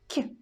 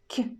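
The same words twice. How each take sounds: First: The consonant is soft, palatalized. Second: The same.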